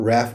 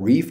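First: The vowel sounds like the one in 'bath'. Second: The vowel sounds like the one in 'beef'. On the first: The speaker calls it wrong. "I think it's not Wrath" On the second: The speaker calls it right. "but Reef"

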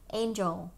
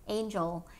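First: The j sound in the middle is strong. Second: The same.

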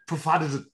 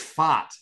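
First: The name starts with a P sound. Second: The name starts with an F sound. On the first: "Or do you go Pfaadt?" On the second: "because the P is silent"

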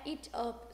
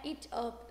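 First: The two words are said separately. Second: The same.

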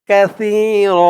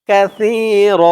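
Both takes have the same delivery.

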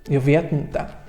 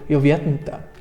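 No difference in how they are said.

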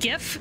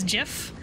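First: It starts with a hard g sound. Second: It starts with a j sound. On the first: "But I also pronounce GIF as GIF" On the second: "said as GIF, like the peanut butter"

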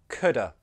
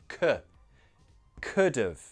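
First: The word 'have' is reduced to 'uh' with no 'v' sound. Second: The word 'have' keeps its 'v' sound. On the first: "We can make this shorter" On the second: "The stress is here"

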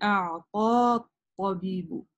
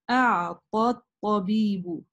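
First: The vowel is long and the alif is sounded. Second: The vowel is short and the alif is silent. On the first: The speaker calls it wrong. "а не" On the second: The speaker calls it right. "только фатха будет читаться. Вот это алиф не читается. Поэтому я прочитала"

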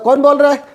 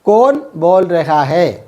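First: It is said quickly, with raha hai shortened. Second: It is said with every syllable fully pronounced. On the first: It is casual, everyday local speech. "അത് നമ്മൾ സ്പീഡിൽ പറയുമ്പോൾ" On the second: It is the standard, written-style form. "എഴുത്ത് ഭാഷയിൽ"

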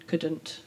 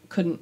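First: The word ending is fully pronounced. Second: The word ending is clipped and condensed. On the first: This is how it is said elsewhere. "rather than" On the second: This is how it is said locally. "the sort of condensed word ending"

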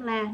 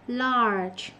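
First: The word ends on an open vowel, no consonant. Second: The word ends with a soft voiced ge sound. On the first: The speaker calls it wrong. "nó không la" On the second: The speaker calls it right. "Nó là large"

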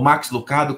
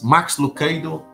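First: The name is pronounced the Portuguese way. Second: The name is pronounced the English way.

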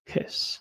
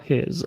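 First: The word ends with a hissing s sound. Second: The word ends with a buzzing z sound. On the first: It means to make a hissing sound. The speaker calls it wrong. "jeśli powiemy przez sy, wyjdzie nam to słowo his, a to jest syczeć" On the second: It is the possessive pronoun. The speaker calls it right. "aby powiedzieć tutaj w wymowie z na końcu"

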